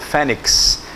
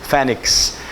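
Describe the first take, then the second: The two takes are said the same way.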